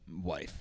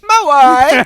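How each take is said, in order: First: It is said in his normal voice. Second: It is said in a Borat impression.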